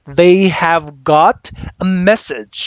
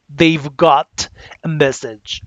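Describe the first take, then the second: First: They and have are said as two full words. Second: They and have merge into one short syllable. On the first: "instead of saying they have got because it's too long" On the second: "you can contract the they and have. It will become they've"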